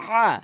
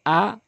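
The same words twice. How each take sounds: First: আ squeezed from the throat, high and loud; pharyngeal, raised আ; throaty ayn আ. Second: Said in the usual way. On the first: Shown as a demonstration. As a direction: push আ through a tightened throat. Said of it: "আইন উচ্চারণ করতে হবে". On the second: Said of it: "এই হামজা আনলে".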